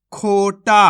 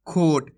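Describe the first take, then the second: First: खोटा with both syllables drawn out and a loud long final टा; teacher's stretched-out reading of खोटा. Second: Said in the usual way. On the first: Shown as a demonstration. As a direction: pull out the aa at the end of खोटा. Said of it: "आ की मात्रा वाले अक्षर को खींच के पढ़ेंगे". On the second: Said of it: "simple खोट पढ़ देते हैं".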